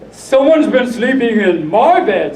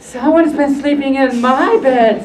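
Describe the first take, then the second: First: It is said in a big, deep voice. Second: It is said in a middle-sized voice.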